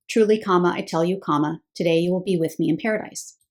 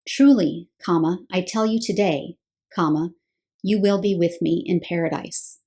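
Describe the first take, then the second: First: Phrase break after I tell you, so today starts the promise; pause before today. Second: Group "I tell you today" as one phrase, then break before "you will be"; pause after today. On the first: Teacher reading the English translation aloud, pausing before today. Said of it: "the way that it is punctuated in the English translations". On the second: Teacher showing the other punctuation, pausing after today. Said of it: "What if it were punctuated this way?". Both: Shown as a demonstration.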